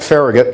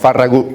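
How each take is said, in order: First: The name is said with an American pronunciation. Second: The name is said with a Catalan pronunciation. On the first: This is how it is said in Washington. "they pronounce it Farragut back in Washington" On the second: This follows the name's Catalan origin. "it's a Catalan name"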